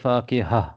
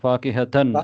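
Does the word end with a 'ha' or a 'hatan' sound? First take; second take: ha; hatan. First: The word ends in a plain 'ha' sound. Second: The word ends in a 'hatan' sound. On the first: The speaker stops after this word. "நிப்படக்குள்ள ஃபாக்கிஹா" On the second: The speech continues without stopping. "ஃபாக்கிஹத்தன் என்று வரணும்"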